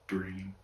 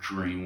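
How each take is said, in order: First: The word begins with a plain d sound. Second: The word begins with a j sound. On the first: The speaker calls it right. "You say dream with the actual D" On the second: The speaker calls it wrong. "Instead of dream with it like J R"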